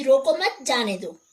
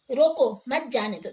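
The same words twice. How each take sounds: First: "मत" pressed louder, joined to "रोको" with a pause before "जाने दो"; stress on मत. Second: "रोको" hit hard, then a break before "मत जाने दो"; stress on रोको. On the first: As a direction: lean on "मत" to say don't stop him. ("रोको मत" पर ज़ोर, फिर ठहरकर "जाने दो") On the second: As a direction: punch "रोको" as an order to stop. ("रोको" पर बल, फिर ठहराव और "मत जाने दो") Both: Shown as a demonstration. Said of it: "शब्द विशेष पर बल देने से".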